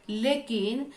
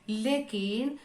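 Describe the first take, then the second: Both takes have the same delivery.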